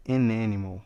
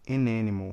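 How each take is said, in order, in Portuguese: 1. O artigo liga suavemente ao substantivo. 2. O artigo liga suavemente ao substantivo.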